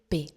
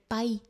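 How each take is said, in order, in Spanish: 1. La vocal es un solo sonido eh. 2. La vocal pasa de ah a ee. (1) "entonces se va a decir P" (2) "no se va a decir PAI"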